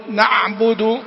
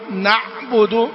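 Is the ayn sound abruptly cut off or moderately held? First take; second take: cut off; cut off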